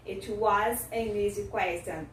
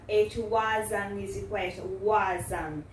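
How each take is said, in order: First: AN kept as 'ehn', linked to EASY; unreduced AN joined onto EASY; full-form article. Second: WAS AN joined as 'wuh-zun', AN weakened; reduced pronunciation. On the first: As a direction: say AN with its open vowel in WAS AN EASY. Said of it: "você pode reduzir para an". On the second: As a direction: say AN as a short 'uhn' linked to EASY. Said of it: "Deu pra entender a pronúncia reduzida?". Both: Shown as a demonstration.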